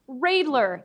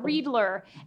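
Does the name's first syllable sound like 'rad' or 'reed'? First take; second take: rad; reed. First: The first syllable sounds like 'rad'. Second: The first syllable sounds like 'reed'. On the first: The speaker calls it right. "it's pronounced Radler" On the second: The speaker calls it wrong. "not Readler"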